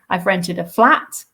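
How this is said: The stress falls on the word flat. It is a flat, not a house. "it's not a house, it's a flat"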